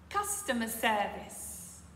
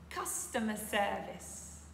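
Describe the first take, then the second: Both takes have the same delivery.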